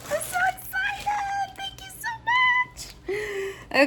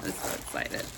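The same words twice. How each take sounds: First: Tiny, very high squeal of excitement; excited squeal. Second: Hushed, voiceless excitement; excited whisper. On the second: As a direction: whisper it, barely containing excitement. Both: Real, not acted. Overwhelmed by unboxing excitement.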